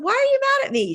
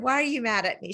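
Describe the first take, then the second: First: Much higher and louder, stunned "Why are you mad at me?"; shocked question. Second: Said in the usual way. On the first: Retold or imitated. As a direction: jump way up in pitch, disbelieving. Retold question to her friend.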